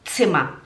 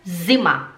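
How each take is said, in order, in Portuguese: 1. Começa com um som de ts seco, cortante. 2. Começa com um som de z suave, vibrado. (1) "é tz, tz, tz, Zimmer" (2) "no alemão não é Zimmer"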